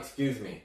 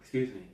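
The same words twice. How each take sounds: First: It is said in a confident, direct manner. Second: It is said in a shy, hesitant manner. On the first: People may ignore the request. The speaker calls it wrong. "You don't say it confidently" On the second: People are more likely to respond. The speaker calls it right. "You say like"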